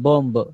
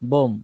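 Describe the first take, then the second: First: A 'b' sound is said at the end. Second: No 'b' sound is said at the end. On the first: The speaker calls it wrong. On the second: The speaker calls it right.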